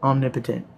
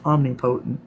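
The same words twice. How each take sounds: First: "Omnipotent" said OM-ni-puh-tent, stress on OM; "Omnipotent" with a short, flat middle; odd pronunciation. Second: "Omnipotent" said om-ni-POH-tn, long O; repeat pronunciation. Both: Shown as a demonstration. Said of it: "That sounded fucking hilarious".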